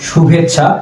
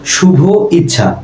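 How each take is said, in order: First: The two vowels merge into one joined word. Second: The two words are said separately, vowels kept apart. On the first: The speaker calls it right. "শুভ যোগ ইচ্ছা সমান শুভেচ্ছা, তখন শুনতে ভালো লাগছে" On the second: The speaker calls it wrong. "শুনতে অতটা ভালো লাগতো না"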